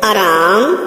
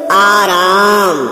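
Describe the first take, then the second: First: आराम, short first vowel, rising end; wrong pronunciation. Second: आराम, slow, both vowels long, falling; correct pronunciation. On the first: Teacher showing students the error, short first vowel in आराम. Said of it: "अशुद्ध". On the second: Teacher showing students the correction, long slow आ in आराम. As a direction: hold the opening आ of आराम. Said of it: "शुद्ध". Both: Shown as a demonstration.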